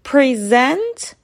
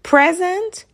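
First: The stress is on the second syllable. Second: The stress is on the first syllable. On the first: It is a verb meaning to present. "ورب به معنی ارائه دادن" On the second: It is a noun meaning a gift. "که نونه به معنی هدیه"

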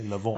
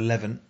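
First: Levant is said with a French-sounding pronunciation. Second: Levant is said with an Essex-sounding pronunciation. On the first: "If it was like near Nice, then maybe you'd say Levant" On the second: "that's a bit Essex"

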